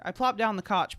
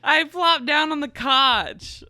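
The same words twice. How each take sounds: First: Said in the usual way. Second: Higher, louder, slow laughing reread; laughing through the line. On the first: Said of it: "Pl-, the couch!". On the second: Real, not acted. Reader rereading the line while still laughing. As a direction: fight through giggles.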